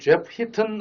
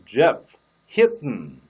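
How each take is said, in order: First: The t sound is fully released with a puff. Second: The tongue stays up, the t sound held. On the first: The speaker calls it wrong. "하면 안 되고" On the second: The speaker calls it right. "혀를 떼지 않은 채 합니다"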